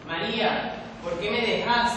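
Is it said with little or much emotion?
little. It is said with little emotion.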